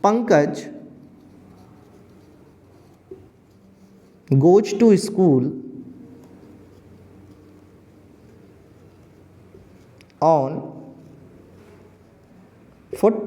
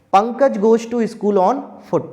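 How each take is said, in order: First: Word by word with long pauses; slow dictation. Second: Said in the usual way. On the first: Shown as a demonstration. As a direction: dictate each word for students to write. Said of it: "teacher dictating example slowly". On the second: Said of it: "teacher repeats example whole".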